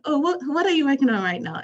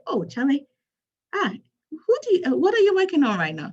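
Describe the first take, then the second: First: Put-on retry the Ghanaian accent, higher and louder; higher, louder Ghanaian accent on the second try. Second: Put-on a first try at a Ghanaian accent, pitched higher and louder; a hint of a Ghanaian accent, higher and louder. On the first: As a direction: ask a friend in a fuller Ghanaian accent what they're working on. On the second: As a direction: greet a friend in a Ghanaian accent that hasn't fully landed. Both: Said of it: "I'm going to use my Ghanaian accent here".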